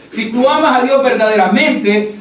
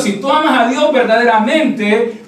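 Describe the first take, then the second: First: Amas punched, tune falls to close; stress on amas. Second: Dios lifted with a rising tune; stress on Dios. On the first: Preacher repeating to the church, amas stressed and falling. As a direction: hit amas hard and let it drop. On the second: Preacher to congregation, first take with Dios rising. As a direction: lean on Dios, leave it hanging upward. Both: Shown as a demonstration.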